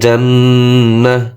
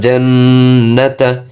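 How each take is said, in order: First: The word ends with a soft h sound. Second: The word ends with a clear ta syllable. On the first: The reader stops at this word. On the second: The reading continues without stopping.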